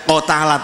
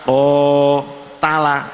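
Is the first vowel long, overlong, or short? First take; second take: short; long. First: The first vowel is clipped short. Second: The first vowel is held moderately long. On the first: The speaker calls it wrong. "tidak ko tala" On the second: The speaker calls it right. "tapi ko tala, itu namanya sudah menunjukkan panjang"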